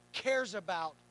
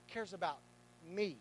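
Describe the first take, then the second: First: Said in the usual way. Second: "cares about me" softer, leaning on "me"; personal, soft. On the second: Shown as a demonstration. Pastor retrying the line to the congregation, soft and personal. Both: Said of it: "let's do it like this".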